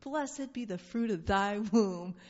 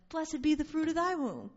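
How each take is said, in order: First: Slow, solemn greeting; tender, unhurried blessing; slow reverent blessing. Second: Louder, higher, joyous; joyful proclaimed blessing. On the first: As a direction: say it like a benediction. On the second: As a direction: proclaim it with delight. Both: Shown as a demonstration. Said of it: "I would like my greeting to be".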